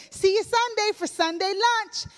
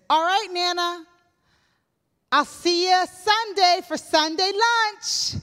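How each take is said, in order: First: Very high, beaming farewell; all smile. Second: High, bright, eager farewell; cheery goodbye. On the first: Newlywed beaming at Nana, high and eager. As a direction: say it grinning with all the teeth showing. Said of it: "And I'm all smile". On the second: Newlywed cheerfully saying goodbye to Nana, high and eager. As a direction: chirp it out to Nana with a big smile. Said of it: "I said". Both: Retold or imitated.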